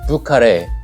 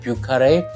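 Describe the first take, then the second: First: It is said with Korean-style sounds. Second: It is said with French-style sounds. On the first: "한국말로 표기하면 뷰카레라고 얘기하고" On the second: "프랑스 말이기 때문에 뷰카레"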